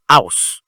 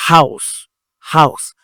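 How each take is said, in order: First: House said as ouse, no H; the wrong house without H. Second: House with the H breathed out. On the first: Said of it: "c'est pas house". (house dit à tort sans H, ouse) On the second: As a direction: sound the H in house. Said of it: "On prononce ça". (house avec le H aspiré, haus) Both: Shown as a demonstration.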